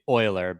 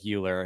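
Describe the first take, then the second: First: The name is said with a German pronunciation. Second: The name is said as English spelling suggests. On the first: The speaker calls it right. "technically Euler ... you look up the German pronunciation" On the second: The speaker calls it wrong. "even though it looks like Euler"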